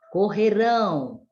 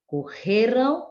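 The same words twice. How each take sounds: First: "correrão" stressed on final RÃO, falling; stress on last syllable. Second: "Correram" stressed on RE, tune rising; stress on penultimate syllable. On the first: Teacher showing the future form, "correrão" stressed on RÃO. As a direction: land firmly on RÃO in "correrão". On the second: Teacher showing the past form, "Correram" stressed on RE. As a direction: lean on RE in "Correram", lift the light ending. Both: Shown as a demonstration. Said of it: "Olha só a diferença ali".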